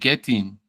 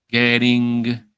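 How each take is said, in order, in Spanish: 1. La palabra termina en un sonido n simple. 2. La palabra termina en un sonido ng completo. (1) "Terminamos en la N" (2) "Hay que hacer la G, la G de gato"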